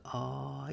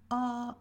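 First: Ah dropped lower. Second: Ah sung higher. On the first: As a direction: let the ah sink down. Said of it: "as opposed to ah". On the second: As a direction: lift the ah up. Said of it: "try to think about going ah". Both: Shown as a demonstration.

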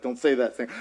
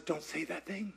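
First: God's line, dropped low and soft; quiet God voice. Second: Very soft, low hush; hushed God voice. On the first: Preacher voicing God's soft warning, low and hushed. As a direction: let God answer softly, low in the voice. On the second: God gently repeating the warning, hushed and low. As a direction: barely breathe God's warning. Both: Retold or imitated.

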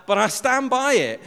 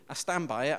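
First: Loud, high-pitched defiant repeat; emphatic insistence. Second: Said in the usual way. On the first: Real, not acted. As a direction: raise the voice and insist, standing your ground. Emphatic repeat of his accusation.

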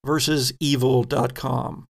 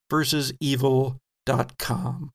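No difference in how they are said.

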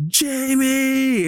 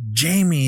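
First: Very high, long drawn-out cry; retold anguished call. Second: High cry falling at the end; retold amazed recognition. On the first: Billy realizing it's his brother, imitated anguished cry. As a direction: imitate a heartbroken call on the verge of tears. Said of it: "he's getting ready to cry". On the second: Girl runs to her returned love, mock amazed cry. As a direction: imitate a delighted realization, pitched high.

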